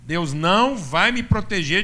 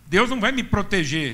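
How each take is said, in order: First: It is spoken slowly and deliberately. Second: It is spoken at a normal pace.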